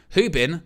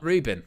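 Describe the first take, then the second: First: The name begins with an H-like sound. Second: The name begins with an English R sound. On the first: The speaker calls it right. "pronounce his name properly" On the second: The speaker calls it wrong. "not Rubin"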